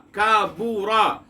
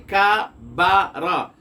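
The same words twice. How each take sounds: First: کابورا said slowly with a rounded u on ba, ka-BU-ra; Arabic vowel u. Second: کابارا drawn out slowly with a clear a on ba, ka-BA-ra; Arabic vowel a. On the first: Teacher contrasting the damma on ba for students: slow کابورا. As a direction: stretch کابورا, round the lips on the u after b. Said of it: "با پر پیش لگا دیتے ہیں". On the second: Teacher showing students the fatha on ba: slow کابارا. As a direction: spell out کابارا slowly, an open a after the b. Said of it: "با پر زبر ہے". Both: Shown as a demonstration.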